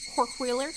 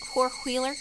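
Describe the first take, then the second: First: It is said in an imitated Southern accent. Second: It is said in an imitated Southern accent.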